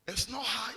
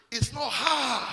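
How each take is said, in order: First: Said in the usual way. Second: Louder, punched repeat of the line; preacher's emphatic shout. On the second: Real, not acted. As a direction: hammer it home to the crowd.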